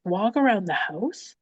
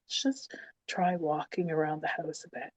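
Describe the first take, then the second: First: Slow, incredulous questioning repeat; exasperated echo. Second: Softer, careful midwife suggestion; gentle coaxing. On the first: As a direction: throw the suggestion back in disbelief. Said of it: "wanting to throat punch her". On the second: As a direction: coax her quietly, imitating the midwife. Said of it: "I remember being so gentle around me". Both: Retold or imitated.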